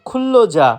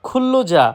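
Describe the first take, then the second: No difference in how they are said.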